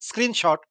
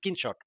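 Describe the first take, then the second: First: The word begins with a clear 'screen' sound. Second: The word begins with a 'skin' sound. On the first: The speaker calls it right. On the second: The speaker calls it wrong.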